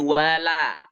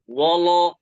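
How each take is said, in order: First: The word is said thin, with open vowels. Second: The word is said thick, with rounded vowels. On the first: The speaker calls it right. "Waw tipis, lam juga tipis" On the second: The speaker calls it wrong. "Jangan wolo"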